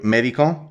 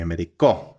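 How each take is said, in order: First: The stress is on the first syllable. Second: The stress is on the last syllable. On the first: It names a doctor. "in each case, we're changing the position of the stressed syllable" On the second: It says he medicated. "in each case, we're changing the position of the stressed syllable"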